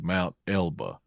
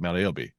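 First: The name ends in an 'ah' sound. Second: The name ends in an 'ee' sound. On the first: This is the standard form of the name. "the correct pronunciation would be Mount Elba" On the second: This is how locals say the name. "we're from Arkansas, so we ain't going to call it that. We call it Mount Elby"

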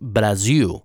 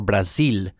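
First: The name is pronounced the Portuguese way. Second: The name is pronounced the Spanish way. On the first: The speaker calls it right. "It's Brazil" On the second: The speaker calls it wrong. "like you would say it in Spanish"

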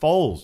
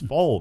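First: The name ends with a z sound. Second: The name ends without a z sound. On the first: The speaker calls it wrong. "no, it's not Foles" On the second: The speaker calls it right. "It's Foal, man"

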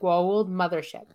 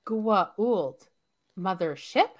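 First: The words flow together as one smooth term. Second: The words are chopped apart with breaks between. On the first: The speaker calls it right. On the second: The speaker calls it wrong.

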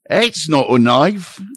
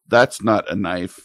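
First: It is said in a strong Australian accent. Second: It is said in his own, mostly plain accent.

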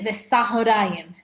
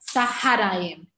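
First: The vowel after the first consonant is 'o'. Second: The vowel after the first consonant is 'a'. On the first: The speaker calls it right. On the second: The speaker calls it wrong.

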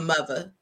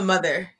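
First: The middle consonant is a 'v' sound. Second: The middle consonant is a 'th' sound. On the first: This is how people in DC say it. "You have a mother. ... It's MUVA" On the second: This is how people outside DC say it. "You do not have a mother in DC"

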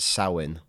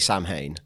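First: The word sounds like 'cow in'. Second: The word does not sound like 'cow in'. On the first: This is how it is said in Irish. "In Irish, you would pronounce it Samhain. Like cow in" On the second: This is how the film says it. "That's Loomis's pronunciation of it"

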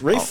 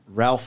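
First: The name is said without an L, 'Rafe'. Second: The name is said with an L sound, 'Ralph'. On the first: The speaker calls it right. "first of all, it's Rafe" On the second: The speaker calls it wrong. "so how do you pronounce Ralph Finnis?"

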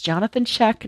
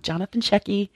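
First: The surname ends on a consonant, one syllable. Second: The surname ends with an added 'ee' vowel. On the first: The speaker calls it right. "it's Jonathan Sheck" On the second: The speaker calls it wrong. "not Jonathan Shecky"

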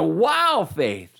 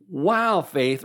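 First: The wow sounds amazed and impressed. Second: The wow sounds disappointed and let down.

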